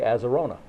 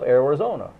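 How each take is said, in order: First: The word begins with the sounds 'Aza'. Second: The word begins with the sounds 'Ari'. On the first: The speaker calls it wrong. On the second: The speaker calls it right.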